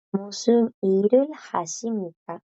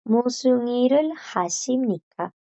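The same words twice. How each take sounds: First: 무슨 일을 하십니까 said fast with 일을 stressed; formal Korean repeat. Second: Fast formal 무슨 일을 하십니까 with stress on 일을; formal Korean demo. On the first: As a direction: model 무슨 일을 하십니까 a second time. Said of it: "Tiene el verbo hacer en formal". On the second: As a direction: read 무슨 일을 하십니까 as a model for the class. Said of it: "las de arriba, que son las formales". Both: Shown as a demonstration.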